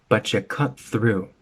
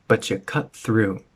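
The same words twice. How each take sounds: Both takes have the same delivery.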